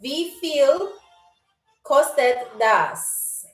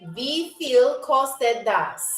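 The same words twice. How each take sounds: First: The phrase is said more slowly. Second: The phrase is said at normal speed.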